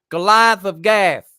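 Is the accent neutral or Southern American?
Southern American. It is said in a deep Southern American accent.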